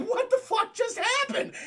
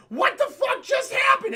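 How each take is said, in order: First: High, rising disbelief; shocked. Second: High, loud disbelief; shocked yell. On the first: Real, not acted. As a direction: ask it stunned, pitch way up. Speaker repeats as own reaction. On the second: Retold or imitated. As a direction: scream it in total shock. Characters shocked after punch.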